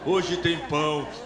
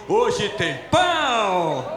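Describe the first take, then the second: First: It is said limply, with low energy. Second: It is said brightly, with high energy. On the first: The speaker calls it wrong. "Você falou muito murcho, esse pão tá dormido" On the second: The speaker calls it right. "é assim"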